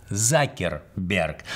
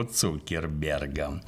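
First: Закерберг with a "za" start, the English way; English pronunciation Zuckerberg. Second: Said in the usual way. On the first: Shown as a demonstration. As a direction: say Закерберг, not Цукерберг. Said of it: "он на самом деле Закерберг". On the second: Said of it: "русским приятнее называть его Цукербергом".

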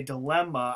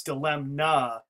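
First: Said in the usual way. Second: "dilemna" with a clearly sounded n after the m; pronounced with N. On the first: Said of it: "I know it's dilemma". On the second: Shown as a demonstration. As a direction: say "dilemna" as dih-LEM-nah. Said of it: "I actually even say it in my head".

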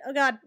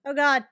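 The two takes are said the same way.

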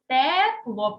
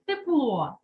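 First: Тепло with a loud, clear «те»; spelling pronunciation. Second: Said in the usual way. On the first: Shown as a demonstration. Teacher confirms the spelling, тепло with emphatic first «е». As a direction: hit a full «е» in тепло. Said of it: "пишеться". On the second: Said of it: "Яку букву".

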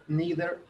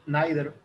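First: "neither" as "NEE-ther"; "neither" said like "nee-der"; variant pronunciation. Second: "neither" as "NIGH-ther"; "neither" said like "nye-der"; alternative pronunciation. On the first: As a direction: say "neither" with a long "ee". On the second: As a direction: say "neither" with an "eye" vowel. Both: Shown as a demonstration. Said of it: "La pronunciación cambia".

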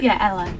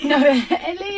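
First: Imitated Manchester accent, lower pitch. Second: Said in the usual way. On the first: Check-in man insisting on the name, imitated Manchester accent. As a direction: answer in a mock Mancunian accent. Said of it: "I forgot he had an accent". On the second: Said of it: "And I was like".

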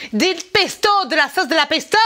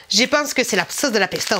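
First: Put-on Italian accent. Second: Said in the usual way. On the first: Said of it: "avec un accent italien".

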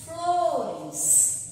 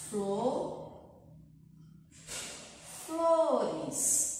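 First: Said in the usual way. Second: "Flor, flores" broken into flo and res, long pause between; separando sílabas. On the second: Shown as a demonstration. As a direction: say each syllable of "flores" alone. ("flores" em sílabas, com pausa longa entre flo e res) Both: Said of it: "vamos ter que separar as sílabas".

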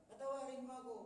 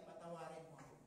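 First: A higher, louder plea for forgiveness; pleading. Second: Said in the usual way. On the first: Acted. Ikrimah begging the man he jailed, louder pleading. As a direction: beg for forgiveness, voice lifted. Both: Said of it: "repeated plea".

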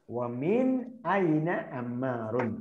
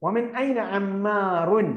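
First: Slower repeat. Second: Slow, with ഐന drawn out; slow model reading. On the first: Teacher repeating the line slowly for copying. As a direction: repeat വമിൻ ഐന അമ്മാറുൻ slowly and lower. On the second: Teacher reading the next Arabic line slowly to students. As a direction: read വമിൻ ഐന അമ്മാറുൻ slowly to the class. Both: Shown as a demonstration. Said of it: "okay".

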